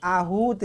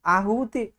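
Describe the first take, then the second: First: आहूत ending on t, no final vowel; corrected form. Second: आहुति ending in a sounded i vowel; wrong form. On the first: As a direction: stretch the oo in आहूत and stop on t. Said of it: "ये आहूत लिखा जाता है". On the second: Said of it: "आहुति नहीं लिखा जाता". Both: Shown as a demonstration.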